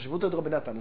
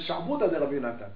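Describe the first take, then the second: First: The first word has no guttural sound. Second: The first word has a guttural sound. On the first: The speaker calls it wrong. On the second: The speaker calls it right.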